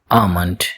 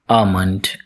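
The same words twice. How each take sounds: First: The L sound is left out after the first vowel. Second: The L sound is left out after the first vowel.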